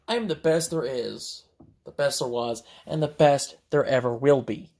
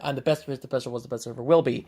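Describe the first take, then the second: First: It is said at a slower, normal pace. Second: It is said quickly, imitating her.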